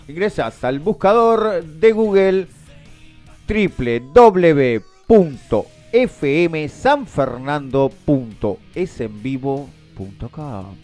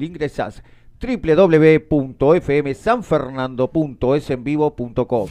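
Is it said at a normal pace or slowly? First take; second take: slowly; normal. First: It is said slowly and deliberately. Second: It is said at a normal pace.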